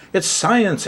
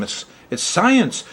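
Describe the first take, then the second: First: Higher, emphatic it's science; insistent exclamation. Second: Higher and slow, insisting it's science; insistent exclamation. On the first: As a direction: punch science with a high falling tune. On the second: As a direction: lean hard on science, pitch up and drawn out. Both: Real, not acted. Astrologer defending astrology to his viewers, insistent and emphatic.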